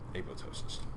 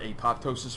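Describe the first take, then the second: First: The second P is left silent. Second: The second P is clearly pronounced. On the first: This is how the speaker and his teacher say it. "Anybody heard it that way with the silent P?" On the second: This is how others say it. "you've heard apoptosis from someone"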